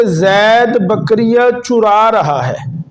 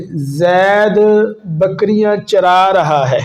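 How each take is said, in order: First: چرا said "churā", with a u in the first syllable; pesh on چرا. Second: چرا said "charā", with an a in the first syllable; slow, measured sentence with چرا as "cha-rā"; zabar on چرا. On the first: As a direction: make چرا sound "chu-rā", as in stealing. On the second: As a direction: say چرا with a short a after ch. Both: Shown as a demonstration. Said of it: "زبر اور پیش میں فرق آیا".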